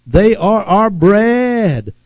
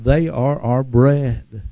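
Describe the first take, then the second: First: Slow, gloating taunt on bread; slow gloating boast; taunting declaration. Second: Said in the usual way. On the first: Shown as a demonstration. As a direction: lean into it like a boast over the enemy. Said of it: "talking like that". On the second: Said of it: "for they are our bread".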